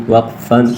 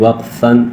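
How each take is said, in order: No difference in how they are said.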